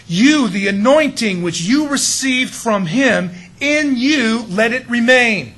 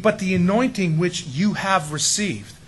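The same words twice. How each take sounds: First: Loud, slow and high, YOU set out first; emphatic, raised reading landing hard on "you"; stress on YOU. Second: Said in the usual way. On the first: Shown as a demonstration. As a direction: hammer "You" as the opening word, drawn out and forceful. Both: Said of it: "he puts the emphasis on you".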